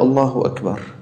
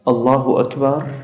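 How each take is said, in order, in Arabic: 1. يُقال كجملة خبرية، بنبرة هابطة. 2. يُقال كسؤال، بنبرة صاعدة.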